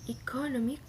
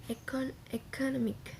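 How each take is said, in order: First: "economic" opening with an ee sound; first pronunciation variant. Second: "economic" opening with a short eh; second pronunciation variant. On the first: Student showing classmates free variation, first pronunciation variant. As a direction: say "economic" as ee-kaw-NAW-mik. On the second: Student showing classmates free variation, second pronunciation variant. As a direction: say "economic" as eh-kah-NAH-mik. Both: Shown as a demonstration. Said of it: "You can pronounce with".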